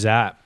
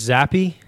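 First: The name ends on a bare 'p' sound. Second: The name ends with an added 'ee' vowel. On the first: The speaker calls it wrong. "when I said Bailey Zapp" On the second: The speaker calls it right. "it's Zappy"

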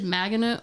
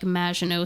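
First: The name ends with an audible T sound. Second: The name ends without any T sound. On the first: The speaker calls it wrong. "I don't think you pronounce the T" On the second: The speaker calls it right. "like Maginot, sounds better. French"

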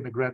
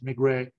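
First: The name is said with an English pronunciation. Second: The name is said with a French pronunciation. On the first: This is how people in Britain say it. The speaker calls it wrong. "in the UK they say Maigret" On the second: This is the proper original pronunciation. The speaker calls it right. "but it's Maigret"

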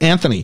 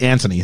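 First: The name is said in a North American way. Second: The name is said in a non-North American way. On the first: The speaker calls it right. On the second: The speaker calls it wrong.

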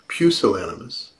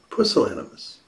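First: The word has the familiar non-European pronunciation. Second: The word has the European pronunciation. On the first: "some of you may know that word as pusillanimous" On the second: "in Europe, ... they pronounce it pusillanimous"

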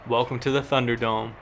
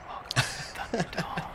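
First: It is said in a plain voice. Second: It is said in a sensual voice.

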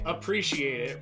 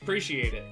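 First: Every syllable of the phrase is pronounced in full. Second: Syllables of the phrase are cut out and shortened. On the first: This is how other regions say it. "we don't say appreciate it" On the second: This is how locals in Maryland say it. "What do we say?"

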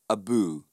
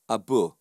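First: The second syllable is drawn out long. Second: The second syllable is kept short. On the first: The speaker calls it wrong. "rather than" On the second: The speaker calls it right. "you shorten the word"

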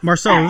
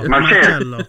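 First: The name is said with a plain English pronunciation. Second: The name is said with an Italian-style pronunciation. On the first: The speaker calls it wrong. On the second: The speaker calls it right.

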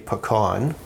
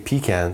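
First: Pecan is said with the American pronunciation. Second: Pecan is said with the Canadian pronunciation. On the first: "They say pecan" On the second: "and we say pecan"

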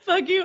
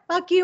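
First: It sounds timid, trying to sound hard. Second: It sounds tough and forceful.

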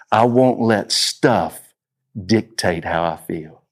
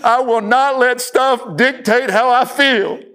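First: It is said at normal volume. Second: It is screamed at full volume.

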